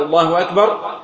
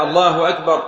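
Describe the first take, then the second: First: الله أكبر with the final ra carried on, voweled, joined to the next takbir. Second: الله أكبر closed with a stop on the final ra, said alone; takbir separate. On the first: Teacher showing joined takbir, carried on. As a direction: run الله أكبر straight into the next one. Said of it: "يجوز أن تجمع بين الاثنين". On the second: Teacher showing single takbir, closed stop. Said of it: "واحدة". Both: Shown as a demonstration.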